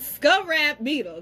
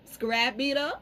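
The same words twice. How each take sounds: First: "Scarab beetle" with "Scarab" as SKUV-rap; first suggested pronunciation. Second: "Scarab beetle" with "Scarab" as skuh-RAP; second suggested pronunciation. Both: Shown as a demonstration. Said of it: "try the way both of y'all told me".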